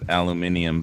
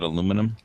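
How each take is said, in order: First: The word is said the British way. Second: The word is said the American way. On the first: "the British always pronounce it aluminium" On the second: "can't we just call it aluminum?"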